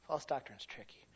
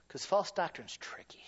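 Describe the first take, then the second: First: Quiet echo. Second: Whisper. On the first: Repeated softly after whisper. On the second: Whispered then repeated softly. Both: Acted.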